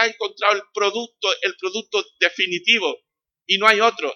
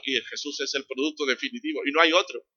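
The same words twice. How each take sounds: First: Louder and higher, hammering it home; emphatic proclamation. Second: Said in the usual way. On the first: Real, not acted. Preacher to congregation, loud emphatic proclamation. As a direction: sell it like the ultimate product, full voice.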